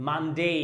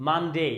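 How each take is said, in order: The two takes are said the same way.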